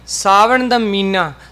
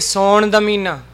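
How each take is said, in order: First: The first word has two syllables, sa-van. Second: The first word is shortened to one syllable.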